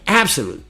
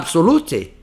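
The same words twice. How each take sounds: First: It is said with English vowel and consonant sounds. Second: It is read aloud with Portuguese letter sounds. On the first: The speaker calls it right. "É outro som" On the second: The speaker calls it wrong. "Aí você vai falar absolute? Não vai dar"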